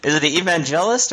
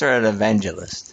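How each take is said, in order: First: "evangelist" as ee-van-JELL-ist; alternative pronunciation. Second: "evangelist" stressed on VAN, with a light "juh"; usual pronunciation. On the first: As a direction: say "evangelist" with the JEL brought out as "jell". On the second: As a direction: say "evangelist" with a reduced middle, ih-VAN-juh-list. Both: Shown as a demonstration.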